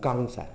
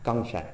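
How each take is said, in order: First: The first word begins with a g sound. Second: The same.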